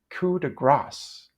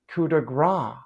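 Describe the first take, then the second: First: The last word ends with an s sound. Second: The last word ends without an s sound. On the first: The speaker calls it right. "So the correct pronunciation is coup de grâce" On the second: The speaker calls it wrong. "People think they're being smart, sophisticated, and correct when they say coup de grace"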